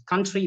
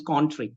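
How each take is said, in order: First: Said in the usual way. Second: "country" said as "cawn-tree", rounded o; Spanish-trainee pronunciation. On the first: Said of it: "My Spanish, uh, trainees". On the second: Shown as a demonstration. Trainer showing Spanish trainees, country said as "cawn-tree". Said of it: "country becomes country".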